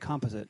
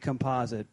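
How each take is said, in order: First: It is said in a British accent. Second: It is said in an American accent.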